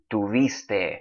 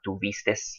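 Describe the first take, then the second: First: The word ends in a vowel, with no final s. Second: The word ends with an added final s sound. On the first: This is the standard academy form. The speaker calls it right. "the way I read them a minute ago, is exactly the way they are supposed to be said" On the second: This is a Mexican regional form. The speaker calls it wrong. "that's the Mexican way of saying all of those uh, verbs"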